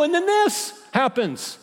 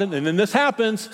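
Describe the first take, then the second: First: High, slow, drawn-out whine on this; hammed-up whine, slowed down; whiny complaint. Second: Said in the usual way. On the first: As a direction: drag out the complaint self-pityingly. Second, exaggerated take.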